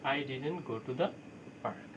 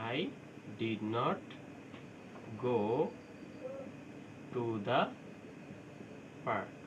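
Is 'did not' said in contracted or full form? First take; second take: contracted; full. First: 'Did not' is merged into one word, didn't. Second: 'Did not' is said as two full words.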